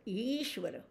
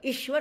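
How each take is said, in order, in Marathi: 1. पहिला स्वर दीर्घ आहे. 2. पहिला स्वर ह्रस्व आहे. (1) "दीर्घ म्हणायचा बरं का" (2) "ईश्वर नाही म्हणायचं"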